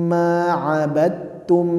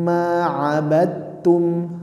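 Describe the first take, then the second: The two takes are said the same way.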